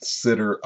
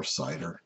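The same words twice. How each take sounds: First: "sitter" with a short i; short-i pronunciation. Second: "sider" with a long i; long-i pronunciation. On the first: Teacher offering one way to say CIDR, "sitter" with short i. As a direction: say "sitter", first syllable like sit. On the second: Teacher giving the alternative way to say CIDR, "sider" with long i. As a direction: say "sider", first syllable like sigh. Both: Shown as a demonstration. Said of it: "depending on how you pronounce it".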